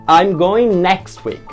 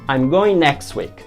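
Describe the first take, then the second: No difference in how they are said.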